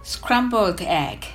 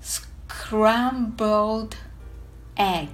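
First: It is said fast. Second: It is said slowly.

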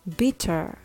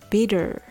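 First: The middle t is a clear, crisp t. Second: The middle t sounds soft, like a d.

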